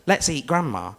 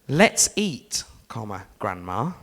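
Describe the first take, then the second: First: There is no pause before Grandma. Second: There is a pause before Grandma.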